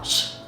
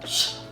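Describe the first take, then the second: The two takes are said the same way.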